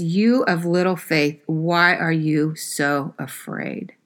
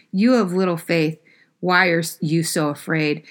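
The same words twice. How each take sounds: First: Gentle rebuke. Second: Said in the usual way. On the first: Retold or imitated. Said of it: "he says". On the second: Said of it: "he looks and says".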